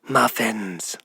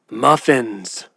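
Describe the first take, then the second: First: It is called more softly, less commanding. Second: It is called louder, with more authority.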